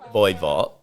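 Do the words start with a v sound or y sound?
v sound. Both words start with a v sound. This is the standard pronunciation. "the phrase with my wife"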